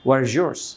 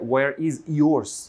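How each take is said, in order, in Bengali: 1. z আর y sound একসাথে মিশে যায়। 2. z আর y সাউন্ড আলাদা থাকে। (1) "ওরা দ্রুত বলে, ... ওদেরও আছে where is yours" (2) "নেটিভরা এটা বলবে না যে where is yours"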